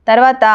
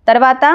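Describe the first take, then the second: Both takes have the same delivery.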